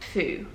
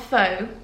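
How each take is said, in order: First: The vowel sounds like 'oo'. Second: The vowel sounds like 'oh'. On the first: The speaker calls it right. "It is actually Foo" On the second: The speaker calls it wrong. "It's not faux"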